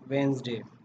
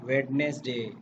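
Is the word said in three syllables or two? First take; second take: two; three. First: It is said in two syllables, wenz-day. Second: It is said in three syllables, wed-nes-day. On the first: The speaker calls it right. "It's वेंसडे" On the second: The speaker calls it wrong. "It's not वेडनेसडे"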